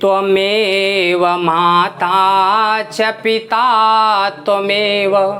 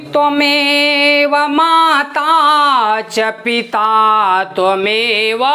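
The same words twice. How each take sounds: First: The phrase is spoken at an ordinary middle pitch. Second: The phrase is spoken at a raised high pitch. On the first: "बिल्कुल सामान्य उच्चारण किया तो ये क्या हुआ, स्वरित" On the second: "इसी को चढ़ा के आपने उच्च भाग से कहा"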